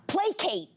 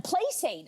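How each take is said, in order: First: Pitched-up, distinct PLAY-kate; correct placate. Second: Pitched-up PLAY-sate; mispronounced placate. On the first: Correct take before the mistaken one. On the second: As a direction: misread placate with an s sound. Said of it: "for the longest time, I pronou". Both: Shown as a demonstration.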